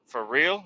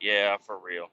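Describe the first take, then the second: First: "real" rising as a question; retold checking question on "For real". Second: "real" low and settled, falling; retold low confirmation, "real" dropping; confirming "for real". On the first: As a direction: ask "For real" with a lift on "real". He asks the neighbor in story. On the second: Neighbor confirms in story.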